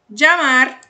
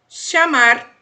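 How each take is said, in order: First: The ll is said like a 'dj' sound. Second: The ll is said like an 'sh' sound. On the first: "som de D J" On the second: "de X nas sílabas"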